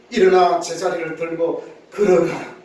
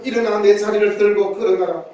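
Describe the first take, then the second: First: 낮고 단호한 명령조로; 권위 있게 한 마디씩 명하듯; Jesus commanding. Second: Said in the usual way. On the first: Acted. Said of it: "예수님께서 명령하십니다". (예수님이 병자에게 명령하는 단호한 목소리) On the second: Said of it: "주께서 하신 이 말씀".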